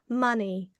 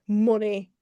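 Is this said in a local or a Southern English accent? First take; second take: Southern; local. First: It is said in a Southern English accent. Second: It is said in the speaker's local accent. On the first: "in sort of like Southern English accents, you'll hear" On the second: "but here it's like"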